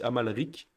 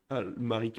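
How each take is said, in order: First: The L comes after the M. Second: The L comes before the M. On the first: The speaker calls it right. "mais c'est Amalric" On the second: The speaker calls it wrong. "À chaque fois je dis Al- Almaric"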